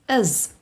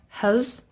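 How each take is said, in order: First: Said weakly with the h sound dropped. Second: Said weakly with a reduced, unclear vowel. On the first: "or even is. And that are the weak forms" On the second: "very often it becomes has"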